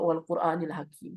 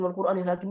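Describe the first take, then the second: First: It is recited slowly, each sound given attention. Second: It is recited quickly, running on without care. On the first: The reciter is savoring and aware of each letter. The speaker calls it right. "begitu kita pelan-pelan kita nikmati" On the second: The reciter is not paying attention to the words. The speaker calls it wrong. "Bukan asal bunyi"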